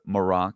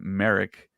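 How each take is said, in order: First: It begins like the word Moroccan. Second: It does not begin like Moroccan. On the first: This follows how a character in the show says it. "almost like a Moroccan" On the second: This is how fans had been saying it. "I think we'd all been saying"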